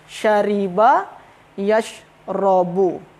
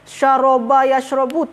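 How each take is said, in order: First: The first word's second vowel is 'i'. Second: The first word's second vowel is 'a'. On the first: The speaker calls it right. "Yang betul dia" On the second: The speaker calls it wrong. "jangan perlu kita sebutkan"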